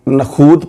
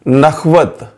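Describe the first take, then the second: First: The middle has a long 'oo' sound. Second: The middle has a 'wa' sound. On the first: The speaker calls it wrong. "बहुत सारे लोग नखूत पढ़ते हैं, जो कि गलत है" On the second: The speaker calls it right. "दुरुस्त लफ्ज है नखवत"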